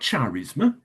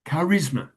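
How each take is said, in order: First: The word begins with a soft ch sound. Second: The word begins with a hard k sound. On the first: The speaker calls it wrong. "not charisma" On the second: The speaker calls it right.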